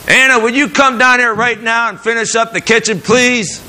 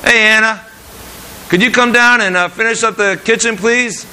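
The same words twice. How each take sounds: First: Bright, high, kind asking voice; gentle request. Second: High, cheerful, easygoing ask; friendly request. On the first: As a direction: call her down sweetly and politely. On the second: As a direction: invite her down warmly. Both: Shown as a demonstration. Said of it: "There's a difference there".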